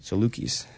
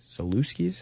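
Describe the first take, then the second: First: No extra s sound comes before the k. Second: An extra s sound comes before the k. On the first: The speaker calls it right. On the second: The speaker calls it wrong.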